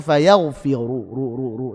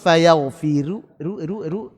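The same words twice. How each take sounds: First: The r is pronounced thick and heavy. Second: The r is pronounced thin and light. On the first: The speaker calls it right. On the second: The speaker calls it wrong.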